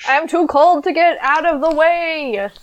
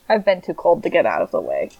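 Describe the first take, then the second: First: Higher, whiny iguana voice. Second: Said in the usual way. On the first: Pretend. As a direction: play a cold helpless iguana. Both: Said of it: "my iguana impression".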